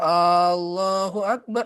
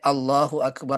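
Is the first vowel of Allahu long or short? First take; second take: long; short. First: The first A vowel is drawn out long. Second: The first A vowel is kept short. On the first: It asks whether God is great. The speaker calls it wrong. "Kalau kita panjangkan Allahu Akbar, Allahu Akbar itu salah" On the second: It states that God is great. The speaker calls it right. "Harus pendek"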